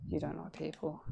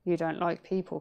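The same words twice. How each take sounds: First: Much softer repeat; quiet. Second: Said in the usual way. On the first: Real, not acted. Talking to herself in mirror, softly. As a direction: say it again under your breath.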